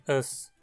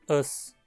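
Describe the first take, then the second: First: The pronoun is said unstressed and reduced. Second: The pronoun is said unstressed and reduced.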